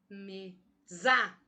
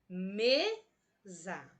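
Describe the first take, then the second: First: The stress is on the second syllable. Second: The stress is on the first syllable. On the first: The speaker calls it wrong. "Vamos pronunciar fortemente a sílaba za e deixar o me mais fraquinho" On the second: The speaker calls it right. "Vamos fortalecer o me e, e pronunciar fraquinho a palavra za"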